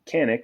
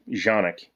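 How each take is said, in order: First: The name begins with a hard K sound. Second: The name begins with a soft J sound.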